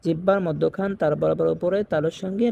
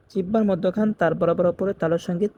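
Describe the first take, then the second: No difference in how they are said.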